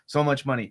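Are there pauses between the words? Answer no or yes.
no. The words run together without pauses between them.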